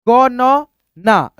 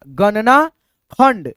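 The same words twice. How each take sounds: First: Very slow, each letter on its own; धीमा, तोड़कर. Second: Joined-up word after spelling out; जोड़कर पढ़ना. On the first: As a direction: spell it out sound by sound. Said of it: "एक एक अक्षर को तोड़ करके". (एक-एक अक्षर अलग, धीरे) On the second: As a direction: blend the sounds into one word. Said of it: "जोड़ करके दोस्तों पढ़ना". (अक्षर जोड़कर एक साथ) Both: Shown as a demonstration.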